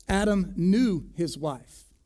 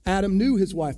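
First: Slow, with "knew" leaned on; stress on knew. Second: Louder, "knew" hit hard and falling; loud stress on knew. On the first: Preacher to congregation, slow weight on knew. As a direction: draw out "knew" so the meaning lands. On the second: Preacher repeating the verse to the church, loud emphasis on knew. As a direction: punch "knew" to drive it home. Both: Shown as a demonstration. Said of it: "It doesn't mean he knew her name".

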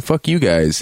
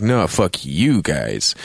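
First: Dismissive curse, mildly heated; mock defiance. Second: Slow comeback. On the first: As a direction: fling it at them, half in jest. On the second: Retold or imitated. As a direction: drag it out coolly to top them. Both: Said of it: "And they're like".

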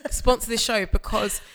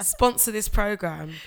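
First: Earnest plea. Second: Mock-serious plea. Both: Real, not acted. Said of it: "I'm being deadly serious".

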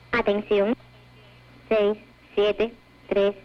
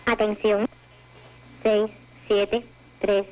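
The two takes are said the same way.

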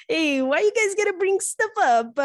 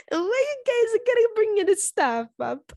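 First: High, loud whine of protest; why do you bring that up, yelled in mock outrage; high playful protest at being teased; mock outraged shout. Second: High, slow whining complaint; same protest again, slower and whinier; whiny mock protest. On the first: Teased about old dating. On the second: Repeats protest, drawn out. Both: Real, not acted.

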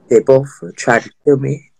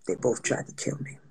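First: "They both tried to kill me" in a low, firm voice; emphatic repeat. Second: Very low, near-whispered admission; hushed confession. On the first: Repeating the Gemini warning to friends, low and emphatic. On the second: Telling friends about two Gemini exes, hushed. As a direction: drop it to a barely voiced undertone. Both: Real, not acted.

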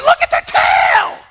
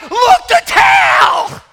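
First: High, loud breathy cry of wonder; mock breathy thrill. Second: Very high, loud, slow thrilled cry; mock gasping tourists. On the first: Tourists snapping pictures of the tail, breathy mock awe. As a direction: gasp it out with awe. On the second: Tourists spotting the whale tail, hammed-up excitement. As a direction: squeal like a crowd seeing the tail. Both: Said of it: "And everybody's like".

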